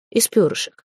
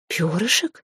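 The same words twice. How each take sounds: First: Said in the usual way. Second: Bewildered question, rising at the end; lost, questioning repeat. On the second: A narrator's reading. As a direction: echo ПЁРЫШЕК as a puzzled question. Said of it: "Всё ещё растерянно".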